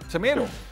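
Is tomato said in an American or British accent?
American. Tomato is said with an American accent. The speaker calls it wrong. "the little bit American accent"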